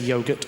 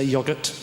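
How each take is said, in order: First: It is said with an Australian accent. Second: It is said with a British accent.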